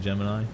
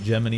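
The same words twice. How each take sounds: First: "Gemini" with its last syllable as eye; usual pronunciation. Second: "Gemini" with its last syllable as ee; game's pronunciation. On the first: Streamer comparing with the game's way, "Gemini" as JEM-in-eye. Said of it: "instead of Gemini". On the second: Streamer quoting how the game says it, "Gemini" as JEM-in-ee. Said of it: "they pronounce it". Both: Shown as a demonstration.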